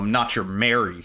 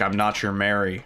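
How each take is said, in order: First: It is said sharply with strong, lively energy. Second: It is said flatly in a monotone voice. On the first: The character abruptly drops her sweet persona. The speaker calls it right. "it has such a punch to it" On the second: No sense of switching between two personalities. The speaker calls it wrong. "it's monotone, the delivery"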